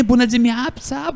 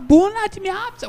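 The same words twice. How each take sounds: First: Excited greeting. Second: Much higher, bună rising up in delight; ecstatic greeting. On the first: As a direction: greet the Romanian with delight. (saudação animada em romeno, bună acentuado) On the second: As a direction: sing it out to win him over. (bună dimineața bem mais agudo e empolgado) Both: Retold or imitated. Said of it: "Oh, Romain".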